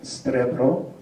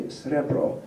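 First: Strebro slowly, with t between s and r; inserted t. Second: Srebro with s straight into r; no inserted t. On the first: Lecturer demonstrating the dialect, strebro with inserted t. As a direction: stretch out strebro, sounding the extra t. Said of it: "but strebro". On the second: Lecturer giving the form not used, srebro without t. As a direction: say srebro without any t after s. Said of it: "They don't say srebro". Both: Shown as a demonstration.

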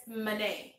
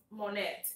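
First: "Monet" as muh-NAY, silent t; English pronunciation. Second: "Monet" with a clear o and sounded final t; Spanish pronunciation. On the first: Host gives the name in English, English pronunciation. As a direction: say "Monet" English-style, first vowel an open a. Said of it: "pero en inglés es Monet". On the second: Host explains a viewer's name, Spanish pronunciation. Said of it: "En español su nombre es Monet". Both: Shown as a demonstration.

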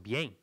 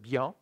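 First: Bien said "bee-eng", with an e vowel; Old French pronunciation. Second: Bien said "bya", ending in an open nasal vowel; modern French pronunciation. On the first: Teacher showing Old French, bien as "bi-eng". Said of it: "That was the pronunciation, like in Old French". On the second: Teacher contrasting French eras, modern "bya" for bien. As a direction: say bien as one syllable, "byã". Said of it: "it's a modern". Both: Shown as a demonstration.

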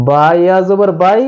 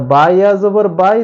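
The two takes are said the same way.

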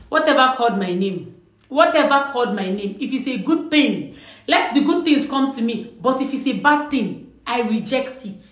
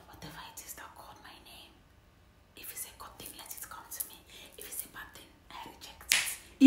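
First: Clear, open declaration, not whispered; spoken out. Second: Barely audible, voiceless whisper; whisper back. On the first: Answering an unseen caller who called out, spoken aloud. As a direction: say it out, full voice. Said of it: "you say it out again". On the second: Viewer replying to a whispered name, secret whisper. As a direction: whisper it under the breath, very softly. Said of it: "whisper back". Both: Shown as a demonstration.

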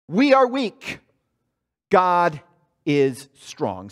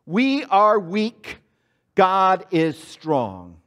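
First: Emphatic creed; call and response. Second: Very slow, spaced words to echo; slow, spaced congregational chant; slow call to repeat. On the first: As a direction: lead the congregation. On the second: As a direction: draw it out for the congregation. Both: Shown as a demonstration. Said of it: "Say that with me".

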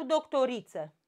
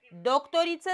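First: "doctoriță" stressed on RI. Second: "Doctoriță" stressed on the first syllable DOC. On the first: Teacher offers the second option, stress on RI. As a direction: move the stress of "doctoriță" onto RI. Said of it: "hai să vedem cum e". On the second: Teacher offers the first option, stress on DOC. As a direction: hit DOC at the start of "Doctoriță". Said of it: "De la doctor". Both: Shown as a demonstration.

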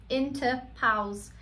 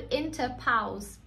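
No difference in how they are said.

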